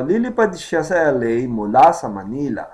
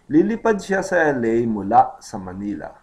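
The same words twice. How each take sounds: First: Mula runs smoothly into sa Manila, emphasis on Manila; stress on Manila. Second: Mula cut off abruptly before sa Manila; isolated mula. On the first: Teacher shows sentence emphasis, stress on Manila. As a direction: link "mula sa Manila" without a break, stressing Manila. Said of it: "the emphasis would be Manila". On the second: Teacher shows what to avoid, mula cut off on its own. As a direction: stop short after "mula", then say "sa Manila". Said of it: "Instead of saying". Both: Shown as a demonstration.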